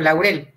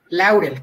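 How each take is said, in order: First: The stress falls on the second syllable. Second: The stress falls on the first syllable. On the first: The listener misheard the name. The speaker calls it wrong. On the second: This is how the speaker wants the name said. The speaker calls it right.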